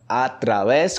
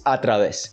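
First: Através said the Spanish way; através with a Spanish accent, open vowels; Spanish través. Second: Através with a long final s, Portuguese vowels. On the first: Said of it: "vocês falam através". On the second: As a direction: say através the Brazilian way, hissing the s. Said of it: "Em português". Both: Shown as a demonstration.

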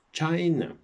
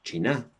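First: "China" said CHAI-na, first syllable stressed and high; English pronunciation. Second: "China" said CHEE-na, the Spanish way, no English stress; Spanish-style pronunciation. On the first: Teacher shows students the English stress, CHAI-na, voice up and stronger. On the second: Teacher shows students the wrong way to say it, CHEE-na. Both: Shown as a demonstration. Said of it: "No decimos China".

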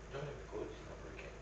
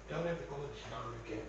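First: Rushed quiet mumble. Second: Rushed mumble. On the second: Rushed muttered sign-off. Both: Acted.

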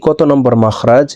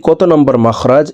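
The two takes are said the same way.

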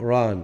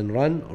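First: "run" said as "ran", with open A; past-tense form. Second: "run" with its short U vowel; present-tense form. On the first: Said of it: "هذا في الماضي". (انطق "run" بألف مفتوحة "ران" في صيغة الماضي) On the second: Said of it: "إذا هذا في المضارع، هذا في الماضي". (انطق "run" بصوت قصير في صيغة المضارع) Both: Shown as a demonstration.

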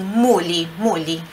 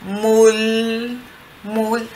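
First: Muli with an added I after the L; helper vowel. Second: Mul with the I dropped, ending on the L; clear final L. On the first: Teacher giving students a trick, muli with an I. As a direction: say muli, the L released onto an I. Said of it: "você diz assim". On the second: Teacher showing the L without the I, clean. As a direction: cut the I and stop on the tongue-tip L. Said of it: "mas elimina o I". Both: Shown as a demonstration.

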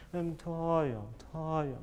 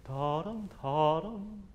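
First: Sung, drooping, gently mournful ta-yum; sung, slow, wistful little tune; sung, little sad. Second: Sung, light, lilting rise on each ta-dum; sung, like announcing good news in a little tune; sung, bright and cheery. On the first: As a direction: sing the syllables with a falling sigh. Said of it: "little sad". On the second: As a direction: sing the syllables cheerily, lifting upward. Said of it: "bright and cheery". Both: Shown as a demonstration.

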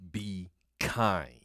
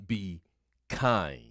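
First: Said in the usual way. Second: "Be" then a pause, then "kind." said apart and deliberate; slow emphatic repeat. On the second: Shown as a demonstration. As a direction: space out "Be ... kind." to drive the point home. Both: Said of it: "today we want to look at".

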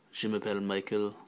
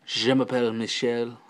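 First: "Michael" said the English way, MY-kul; softly, with an English "Michael"; English name in French. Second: "Michel" said the French way, mee-SHELL; French pronunciation. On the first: Vlogger practising French introductions, "Michael" said as MY-kul. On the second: Vlogger showing the French version, "Michel" as mee-SHELL. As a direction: end on a French "Michel", stressed on the second syllable. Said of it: "as we say en français". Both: Shown as a demonstration.

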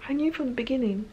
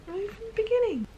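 First: Said in the usual way. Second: "I knew from the beginning" in a much higher squeaky voice; squeaky high repeat. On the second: Real, not acted.

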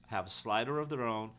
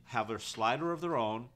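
The two takes are said the same way.

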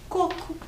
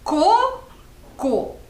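First: Said in the usual way. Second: CO - CO as two separate beats, the first high and loud; syllable by syllable. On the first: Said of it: "escrever a palavra coco". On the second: Shown as a demonstration. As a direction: split Co- Co into clapped syllables with a pause between. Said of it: "Eu falo a palavra e você bate palma". (sílaba por sílaba, CO, pausa, CO)

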